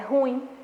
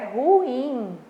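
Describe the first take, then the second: First: The stress is on the first syllable. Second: The stress is on the second syllable. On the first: The speaker calls it wrong. "muitas pessoas falam que é ruim, é ruim, mas está errado" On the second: The speaker calls it right. "O correto é ruim / a sílaba tônica é no in"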